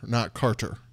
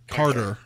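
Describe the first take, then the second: First: The middle consonant sounds like a T. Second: The middle consonant sounds like a D. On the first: The speaker calls it wrong. "not a T" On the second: The speaker calls it right. "Carter with a D"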